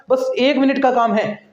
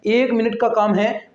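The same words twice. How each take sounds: First: Said in the usual way. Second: "एक minute का काम है" said slower, each word spaced out; slow reassuring repeat. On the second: Shown as a demonstration. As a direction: repeat it slowly so students relax. (धीरे-धीरे, तसल्ली देते हुए दोहराना)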